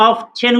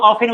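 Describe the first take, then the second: First: "অফচেন" as of-chen, t heard as ch; sounded t. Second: "অফেন" as off-en, no t; silent t. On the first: Teacher offers first option, "অফচেন" with the t sounded. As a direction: sound the middle consonant in "অফচেন". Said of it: "এটা দুইটা উচ্চারণই সঠিক". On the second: Teacher offers second option, "অফেন" with silent t. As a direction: drop the t from "অফেন". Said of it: "তখন এই টি এর সা". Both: Shown as a demonstration.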